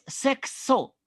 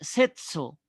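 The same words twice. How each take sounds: First: The middle consonant is a ks sound. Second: The middle consonant is a plain s sound. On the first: The speaker calls it right. "se escribe es sexo con X" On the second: The speaker calls it wrong. "hay mucha gente que la pronuncia así"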